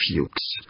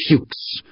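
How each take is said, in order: First: Fuchs, growled low and much softer. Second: Fuchs, a raging hiss with no voice. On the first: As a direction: spit out Fuchs under your breath, menacing. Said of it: "but he growled". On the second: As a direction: force Fuchs out as a furious breathy hiss. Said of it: "Humphreys raged". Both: A narrator's reading.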